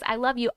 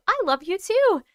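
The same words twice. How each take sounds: First: Said in the usual way. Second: "too" raised high and held; stress on too. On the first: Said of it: "viewer's line read plainly". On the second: Real, not acted. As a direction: lean on "too" as an answer. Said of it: "warm reply with stress".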